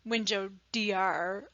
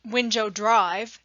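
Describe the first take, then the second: First: The street word is spelled out as letters. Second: The street word is said in full. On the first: The speaker calls it wrong. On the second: The speaker calls it right. "you would say"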